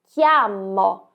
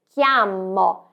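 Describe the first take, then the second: No difference in how they are said.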